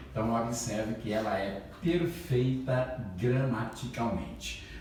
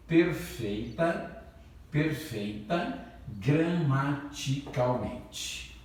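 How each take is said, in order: First: Said in the usual way. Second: Drawn out, each syllable weighted, "perfeita" stretched slowly; teacher drilling a key term: slow, deliberate emphasis; slow emphatic stress. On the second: Shown as a demonstration. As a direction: hammer "perfeita gramaticalmente" home slowly for the class.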